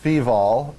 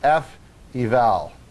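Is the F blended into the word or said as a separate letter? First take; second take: blended; separate. First: The word is said as one blended word. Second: The F is said separately, then eval. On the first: The speaker calls it wrong. "you don't pronounce this feval" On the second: The speaker calls it right. "you pronounce it feval, as in function evaluation"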